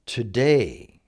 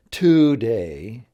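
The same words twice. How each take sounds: First: "today" with DAY drawn out and stressed. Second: "today" stressed on TO, loud "TOO-day"; wrong-syllable stress. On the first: Teacher corrects the stress for learners, "today" stressed on DAY. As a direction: lean on the second syllable of "today", to-DAY. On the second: Teacher shows learners what it's not, "today" stressed on TO. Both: Shown as a demonstration. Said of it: "with day being emphasized".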